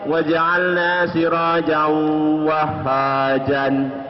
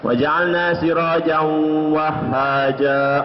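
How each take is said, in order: First: The last word ends with an n sound. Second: The last word ends on a long vowel. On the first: The speaker calls it wrong. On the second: The speaker calls it right.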